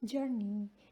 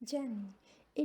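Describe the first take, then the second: First: It is said in an American accent. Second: It is said in a British accent. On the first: "in US जर्नी" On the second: "in UK जर्नी"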